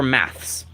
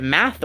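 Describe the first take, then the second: First: "maths" with an s after the th; British pronunciation. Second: "math" ending on a plain th, no s; North American pronunciation. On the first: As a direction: end "maths" on a ths cluster. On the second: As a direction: say "math" with no final s. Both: Shown as a demonstration. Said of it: "do you pronounce it math or maths".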